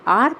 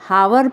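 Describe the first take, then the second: First: The word starts with a vowel, no h. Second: The word starts with an h sound. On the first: The speaker calls it right. "जब आप इसका सही उच्चारण करेंगे" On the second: The speaker calls it wrong. "उच्चारण गलत करते हैं"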